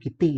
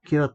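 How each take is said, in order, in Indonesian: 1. Diucapkan dua suku kata, seperti 'kitty'. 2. Diucapkan satu suku kata, seperti 'cute'. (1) "pengucapannya bukan Kitty" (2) "yang benar tapi cute gitu"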